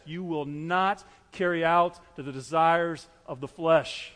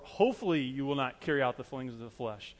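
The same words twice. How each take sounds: First: Slow, firm "you will not carry out", with "not" and "out" leaned on; emphatic promise. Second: Said in the usual way. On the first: Shown as a demonstration. Preacher stressing the sure promise to believers, emphatic. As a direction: stretch "out" and keep every word weighty and certain. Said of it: "very emphatic". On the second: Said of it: "No, what does it say there?".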